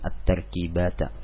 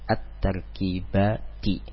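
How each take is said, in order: First: The word ends with an 'a' vowel. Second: The word ends with an 'i' vowel. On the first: The speaker calls it wrong. "bukan at-tarkibata" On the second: The speaker calls it right. "Dia mansubnya dengan kasroh at-tarkibati"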